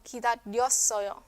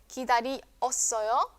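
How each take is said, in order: First: The vowels i and eo merge into one syllable. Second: The vowels i and eo are separate syllables.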